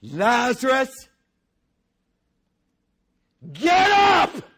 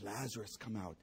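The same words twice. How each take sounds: First: Booming high shout; loud cry. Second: Soft, low, gentle call; quiet call. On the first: Preacher as Jesus crying out loudly at the grave. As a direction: roar the name into the tomb. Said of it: "with a loud voice". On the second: Preacher replaying Jesus's call softly to the crowd. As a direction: say it almost under the breath. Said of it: "He says". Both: Acted.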